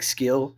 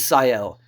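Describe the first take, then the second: First: The name begins with an sk sound. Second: The name begins with a plain s sound. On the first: The speaker calls it wrong. "I always pronounce it like Skill" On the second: The speaker calls it right. "but it's Ciel"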